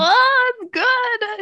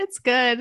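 First: Much higher, louder delighted "Oh, it's good"; high, loud thrilled gush. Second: Said in the usual way. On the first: Real, not acted. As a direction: squeal with delight. Gushing over favourite scene.

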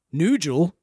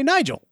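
First: "Nigel" as NOO-jul; deliberate mispronunciation. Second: "Nigel" as NYE-jul, high then falling; usual pronunciation. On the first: Giving an absurd counterexample, "Nigel" as NOO-jul. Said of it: "we don't say, for example". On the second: Proving his point, "Nigel" as a high, emphatic NYE-jul. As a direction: say "Nigel" with a long i, pitched high. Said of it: "We say Nigel". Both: Shown as a demonstration.

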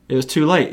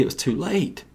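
First: Said in the usual way. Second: Hushed. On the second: Shown as a demonstration. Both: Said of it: "repeated line".

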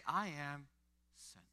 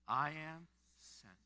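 First: Said in the usual way. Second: Slow, each word drawn out; slow declaration. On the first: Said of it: "But you, you say". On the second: Shown as a demonstration. Pastor leading the congregation in repeating it, slowly. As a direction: say it slowly with weight. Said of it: "Can you say it with me right now?".

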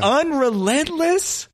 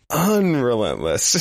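First: Drawn-out, much higher, disbelieving question; Unrelentless? stretched slow with a high rising question tune; incredulous echo. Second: Unrelentless. slow and level, savoured deadpan; Unrelentless. said slowly with a steady, plain tune; flat confirmation. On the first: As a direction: repeat the made-up word in mock disbelief. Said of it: "why is he so unrelentless". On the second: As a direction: answer by drawing out the word, dead serious. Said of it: "That's a lyric in this song". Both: Acted.

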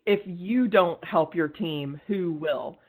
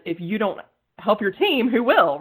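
First: Said in the usual way. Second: Louder, higher push on "help your team"; emphatic repeat. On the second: Shown as a demonstration. Urging women to back their team, emphatic with "team" and "will" punched. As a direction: drive "team, who will" up and loud. Repeats maxim with more force.

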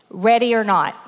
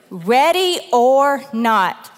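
First: Said in the usual way. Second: Slow and emphatic. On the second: Shown as a demonstration. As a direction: stretch Ready or Not slowly. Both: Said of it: "this is the title for today".

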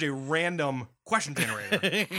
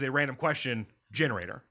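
First: RANDOM set apart, then "question generator" as one unit; group it as random / question generator; break after RANDOM. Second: "random question" as one unit, then GENERATOR set apart; group it as random question / generator; break before GENERATOR. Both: Shown as a demonstration. Contrasts two groupings of the phrase.

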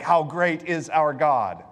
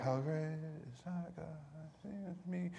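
First: Said in the usual way. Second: Much softer, distant, going through the motions; "How great is our God" muttered softly without conviction; half-hearted mumble. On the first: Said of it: "So we sing things like". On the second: Shown as a demonstration. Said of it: "we start 'em like".

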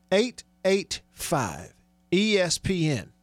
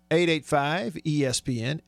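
First: Digit by digit, with gaps; very deliberate radio read-out of the number; slow repeat. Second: Said in the usual way. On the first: Real, not acted. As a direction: spell it out slowly for note-takers.

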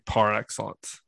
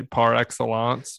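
First: "par excellence" in plain English, ending like "lence"; anglicized pronunciation. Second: "par excellence" with a French-sounding -ahnts ending; French-style pronunciation. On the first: Author insists on own way, English pronunciation. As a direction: say "excellence" as the ordinary English word. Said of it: "but I say par excellence". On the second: Author mimics how the cucks say it, mock-French pronunciation. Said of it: "how those cucks want you to say". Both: Shown as a demonstration.

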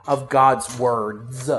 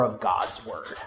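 First: "words" drawn out with a stressed final s; stress on plural WORDS. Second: Said in the usual way. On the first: Shown as a demonstration. Preacher corrects himself to the plural, "words" drawn out. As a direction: stretch "words" slowly to bring out the plural.

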